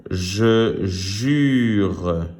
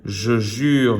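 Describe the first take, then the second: First: "Je jure" drawn out, each word separate; word reading. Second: Said in the usual way. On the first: Shown as a demonstration. Teacher reading words to pupils, drawn-out "Je jure". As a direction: stretch "Je" and "jure" deliberately. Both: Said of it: "Je lis des mots".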